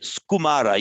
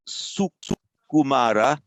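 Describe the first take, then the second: First: The s and k are run together. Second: The s and k are separated by a vowel. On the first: The speaker calls it wrong. "You'd run the S and the K, K together" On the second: The speaker calls it right. "as two as two distinct syllables"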